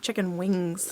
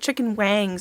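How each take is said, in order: First: The second word has an 'i' vowel, 'wings'. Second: The second word has an 'a' vowel, 'wangs'. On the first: The speaker calls it right. "It should be chicken wings" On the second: The speaker calls it wrong. "Why are you pronouncing it chicken wangs?"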